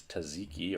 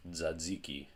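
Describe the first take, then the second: First: Tzatziki as "tuh-ZEE-kee"; tzatziki with an opening t and plain z; common mispronunciation. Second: Tzatziki as "dza-DZEE-kee"; tzatziki with two voiced dz sounds; actual pronunciation. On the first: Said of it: "a lot of people pronounce this". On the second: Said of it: "This is actually pronounced". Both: Shown as a demonstration.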